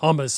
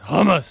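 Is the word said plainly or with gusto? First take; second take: plainly; with gusto. First: The word is said plainly, without gusto. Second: The word is said forcefully, with gusto. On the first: The speaker calls it wrong. "it's not hummus" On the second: The speaker calls it right. "It's got some gusto in it"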